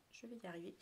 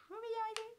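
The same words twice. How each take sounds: First: Quiet self-encouragement. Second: Very high, squeaky little voice; squeaky mock struggle. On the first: Real, not acted. Vlogger coaxing herself through a one-handed task, quietly. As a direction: say it quietly to yourself. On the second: Vlogger fumbling with one hand, in a playful squeaky voice.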